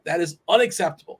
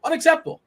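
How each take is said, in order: First: Said in the usual way. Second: "Unacceptable" jumped up high and pushed; "Unacceptable" thrown up high in mock outrage; emphatic repeat. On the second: Real, not acted.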